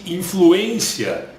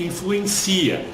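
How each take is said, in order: First: The stress falls on the syllable 'en'. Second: The stress falls on the syllable 'ci'. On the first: It is the noun, influence. "o substantivo ele é acentuado no em" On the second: It is the verb, to influence. "A sílaba tônica está no si"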